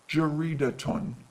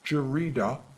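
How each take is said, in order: First: The word ends with an audible t and ending. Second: The word ends in a plain vowel, no t. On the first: "how it sounds with vowelling" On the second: "Listen to how I pronounce it without vowelling"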